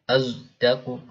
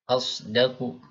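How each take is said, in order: First: The first consonant is a heavy z sound. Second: The first consonant is a plain emphatic s. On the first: This is another reading tradition. "Huruf shadnya seperti dicampur atau digabung dengan z" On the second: This is the usual reading tradition. "biasa shadnya"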